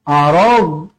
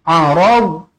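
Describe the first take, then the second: Both takes have the same delivery.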